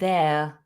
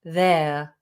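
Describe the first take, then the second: No difference in how they are said.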